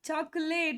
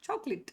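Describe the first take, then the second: First: The last syllable is a full 'late'. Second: The last syllable is a short 'lit'. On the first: "ಚಾಕೊಲೇಟ್ ಅಂತ ಹೇಳ್ತೀವಿ use usually" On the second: "ಲೇಟ್ ಅಂತ ಬರ್ದಿದ್ರು sound ಏನಾಗಿದೆ, ಲಿಟ್ ಇದೆ"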